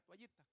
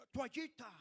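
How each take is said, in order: First: Said in the usual way. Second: Loud, raised gringo accent on "Toallita". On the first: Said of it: "Nosotros aquí decimos". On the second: Shown as a demonstration. Preacher mimics the gringo ambassador saying "Toallita", American accent. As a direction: exaggerate an American accent in Spanish, louder and higher. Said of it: "Pero el gringo dice".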